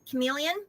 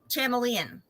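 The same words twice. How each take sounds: First: The word begins with a k sound. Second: The word begins with a ch sound.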